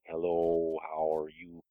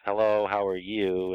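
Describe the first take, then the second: First: It is said drawn out and slowly. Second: It is said at a normal speed.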